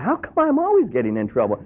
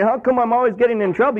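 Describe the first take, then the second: First: Sincere self-question. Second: Mock whining, pitched higher; whiny complaint. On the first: Shown as a demonstration. Preacher showing the honest question, sincere. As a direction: ask it of yourself in earnest. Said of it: "you ought to be asking yourself that". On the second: Believer grumbling at God, mock whining. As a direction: complain like a put-upon kid. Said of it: "Rather than complaining".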